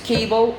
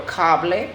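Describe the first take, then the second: First: Said in the usual way. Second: "cable" in Spanish, KAH-bleh; Spanish pronunciation. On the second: Shown as a demonstration. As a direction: say "cable" as Spanish, open "a" and final "eh". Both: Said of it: "often identical in Spanish and English".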